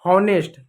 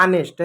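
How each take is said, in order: First: हॉनेस्ट with a breathed H; wrong pronunciation. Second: ऑनेस्ट starting straight on the vowel; silent H. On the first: Teacher shows the error, mispronounced with sounded H. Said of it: "गलत होता है". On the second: Teacher gives the correct word with silent H. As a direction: leave the H off ऑनेस्ट. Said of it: "एच silent होता है". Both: Shown as a demonstration.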